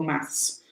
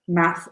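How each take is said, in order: First: The word ends with an s sound. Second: The word ends without an s sound. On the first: This is the British form. "In the U K, we say maths with an S" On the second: This is the American form. "this is the American"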